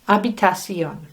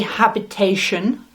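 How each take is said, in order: First: The word ends with a Spanish 'see-on' sound. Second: The word ends with an English 'shun' sound. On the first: The speaker calls it right. "So the pronunciation is habitación" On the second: The speaker calls it wrong. "Don't say habitation"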